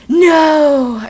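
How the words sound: It is screamed in a sexy, seductive way. The speaker calls it right. "I screamed sexily"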